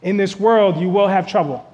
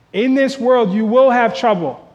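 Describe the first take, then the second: First: Said in the usual way. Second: In this world you will have trouble, louder and higher, stress on will; emphatic repeat. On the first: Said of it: "reading the verse". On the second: Shown as a demonstration. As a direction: preach it, leaning on will. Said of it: "repeated for emphasis".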